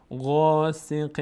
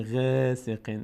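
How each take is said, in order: First: غاسق with a full open غا; heavy emphatic غاسق. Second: غاسق said thin with a light e vowel; wrong light vowel. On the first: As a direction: open the mouth upward on غا. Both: Shown as a demonstration.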